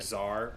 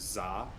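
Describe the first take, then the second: First: The word ends with an audible R sound. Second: The word ends without any R sound. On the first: "I didn't hear the R at the end" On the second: "I didn't hear the R at the end"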